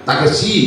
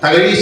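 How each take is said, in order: First: The middle consonant is a plain s sound. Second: The middle consonant is a retroflex zh sound. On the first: The speaker calls it wrong. "തകശി Sivasankar Pillai എന്നേ അവർ പറയുള്ളൂ" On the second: The speaker calls it right. "തകഴി Sivasankara Pillai പറയില്ല"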